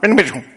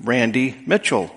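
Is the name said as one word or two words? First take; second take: one word; two words. First: The two words are run together as one. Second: The two words are said separately. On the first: The speaker calls it wrong. "Not Randy Mitchell" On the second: The speaker calls it right. "Just like I am Randy Mitchell"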